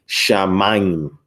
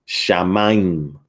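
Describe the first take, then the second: Both takes have the same delivery.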